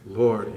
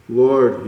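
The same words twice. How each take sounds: First: "Lord" dropped lower and softer, full of pathos; hushed plea. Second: "Lord" called out with aching feeling, a little louder; plaintive cry. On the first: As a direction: let "Lord" sink into a quiet, yearning plea. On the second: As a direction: reach out with the word "Lord" in longing. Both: Acted. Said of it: "Such pathos".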